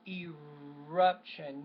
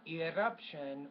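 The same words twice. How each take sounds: First: The R sound is pronounced clearly. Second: The R sound is pronounced poorly. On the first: The speaker calls it right. "except for the R sound, is eruption" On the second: The speaker calls it wrong. "not eruption"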